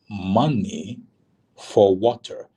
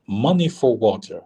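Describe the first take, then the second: First: Spaced out, with a pause after "Money"; "Money", pause, then "for water" pushed slightly harder; slow, deliberate repeat. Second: Said in the usual way. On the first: Retold or imitated. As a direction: imitate someone spelling it out for a confused listener. Soldier repeats demand after "Wait, what?.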